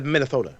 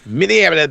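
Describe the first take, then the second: First: Minnesota said with lisped th, mock local twang; playful Minnesota. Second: Minneapolis said louder, bouncy and mangled as mock mispronunciation; playful Minneapolis. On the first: Riffing on the host city to his friend, lisped Minnesota. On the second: Repeating Minneapolis to his co-host, playful mangled. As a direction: toss out Minneapolis playfully garbled. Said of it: "in Minneapolis". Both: Shown as a demonstration.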